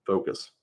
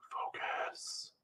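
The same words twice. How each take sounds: First: Said in the usual way. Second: A breathy whispered focus. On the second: Real, not acted. Streamer telling themself to focus, whispered. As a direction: whisper the word to yourself.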